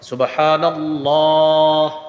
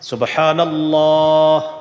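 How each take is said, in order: The two takes are said the same way.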